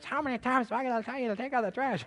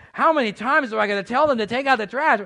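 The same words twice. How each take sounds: First: Higher, quick, exasperated parent voice; nagging parent. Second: Much louder, higher, fed-up parent yell; exasperated parent. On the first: Pastor imitating a parent nagging a kid about trash, higher and fast. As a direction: rattle it off like a fed-up mom. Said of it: "you remember your parents". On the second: Pastor playing a parent fed up with the kids, loud. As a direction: let the frustration blast out. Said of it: "if you're a parent". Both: Retold or imitated.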